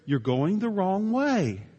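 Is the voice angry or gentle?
gentle. It is said in a calm, kind voice. The speaker is kindly correcting the driver. "In a nice way"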